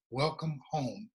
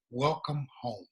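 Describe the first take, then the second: First: Softer and slow, full of emotion; moved, hushed welcome. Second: Gentle welcome. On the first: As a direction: let the words sink in slowly. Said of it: "First time in my life I'd ever been told". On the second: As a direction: greet him gently, like family. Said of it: "looks me in my face and says". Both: Retold or imitated.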